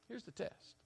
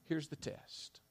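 First: Soft repeat. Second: Said in the usual way. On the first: Shown as a demonstration.

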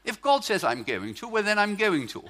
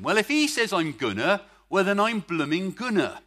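First: Neat Oxford English, "going to" said in full; proper Oxford English, every "going to" complete; mock-refined Oxford English, laughing a little; Oxford version. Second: West Country burr, louder, "gonna" and "blooming" with rolled r; hearty Bristol accent, "blooming gonna"; gleeful West Country Bristol accent with a laugh; Bristol version. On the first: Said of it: "that's the Oxford version". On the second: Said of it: "I prefer the Bristol version". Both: Shown as a demonstration.

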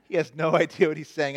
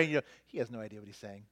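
First: Chuckling through the words; laughing. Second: Said in the usual way. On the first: Real, not acted. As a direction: laugh mid-sentence. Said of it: "repeated with a laugh". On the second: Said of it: "fast quiet aside, then repeated".

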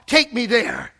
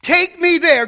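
First: Said in the usual way. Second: "me" pushed up high and loud, falling away; the second "Take me there" lifted and cried out; louder, higher repeat. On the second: Shown as a demonstration. Preacher pleading to be taken to the cross, louder.

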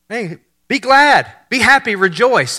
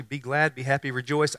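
First: Slow, laid-back, higher greeting; chilled angel. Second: Baffled echo. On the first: Preacher imitating the angel as chilled, slow and high. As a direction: stretch it out, easygoing. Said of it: "he's just chilled". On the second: Mary echoing the angel's words, soft and puzzled. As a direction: mutter it back confused. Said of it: "imagine her response initially". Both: Retold or imitated.

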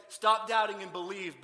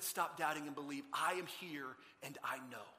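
First: Loud, slow, forceful order; blunt command. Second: Lower, calm, unhurried appeal; gentle reassurance. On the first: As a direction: order it firmly, before any kindness. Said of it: "He didn't say". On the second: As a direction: reassure the struggler quietly. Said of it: "He engaged Thomas in his struggle and said". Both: Acted.

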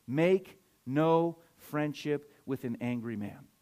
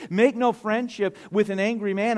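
First: Slow, measured, word-by-word quote; spaced-out, weighty Bible verse; slow, deliberate scripture reading. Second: Louder, higher preaching voice; raised, emphatic Bible quote; forceful scripture quote. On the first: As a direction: read it slowly, pausing on each word. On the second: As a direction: proclaim the verse with force. Same verse repeated with preaching force. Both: Real, not acted.

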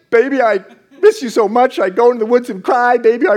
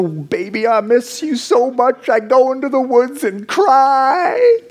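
First: Sung, rattle the lyric off like it's stuck in your head; mock crooning on repeat. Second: High, slow, sappy crooning of the lyric; mock crooning love song. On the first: Lyrics stuck in head all day. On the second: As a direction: croon it like a cheesy breakup ballad, half mocking.

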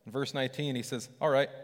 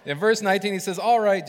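First: Said in the usual way. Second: "All right" called out much louder and higher; louder, emphatic retake. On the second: Shown as a demonstration. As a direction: repeat it with a punch on "All right".

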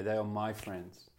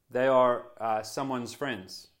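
First: Slower, softer, "my" leaned on warmly; tender weight on "my" in "They are my friends"; stress on my. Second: Said in the usual way. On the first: Shown as a demonstration. Pastor claiming his friends, slow soft stress. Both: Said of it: "It's the word my".

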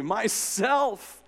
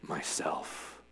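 First: High and bright, a joyful ring. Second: Low, deep and soft, earth-shaking. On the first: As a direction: ring it out gladly. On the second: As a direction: let it rumble from below. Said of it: "deep and low, so that the whole earth shook". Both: A narrator's reading.

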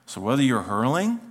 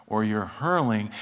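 First: "hurling" with a rising tune; "hurling" left hanging upward; questioning rise. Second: "hurling" slow with a falling tune; "hurling" drawn out, pitch coming down. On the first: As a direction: lift the pitch through "hurling". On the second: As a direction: stretch "hurling" and let it drop. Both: Shown as a demonstration. Two senses of hurling contrasted.

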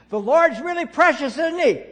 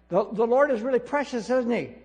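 First: Very loud and high, straining to reach a deaf lady; near-shouted cheerful question; shouting. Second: Put-on loud and high, asking a deaf old lady cheerfully; raised cheerful call. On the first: Retold or imitated. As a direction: bellow it at a hard-of-hearing old woman. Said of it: "and I don't shout, look, look around". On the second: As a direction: call it out so a hard-of-hearing woman can catch it. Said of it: "and I don't shout".

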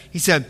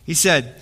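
No difference in how they are said.

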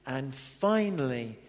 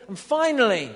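First: Drawn-out And finally, dropped low and slow; slow low restart. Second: Loud announcement. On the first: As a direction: start over, slowly and deliberately. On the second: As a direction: punch finally out loud. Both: Shown as a demonstration.

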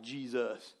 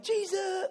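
First: « Jesus. » dit bas et doux, sans surprise; reconnaît tranquillement « Jesus. »; calm recognition. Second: Cri aigu et paniqué sur « Jesus! », beaucoup plus haut; terrified shout. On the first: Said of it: "they were not like". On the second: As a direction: crie « Jesus! » comme devant un fantôme. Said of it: "they're like". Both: Retold or imitated.

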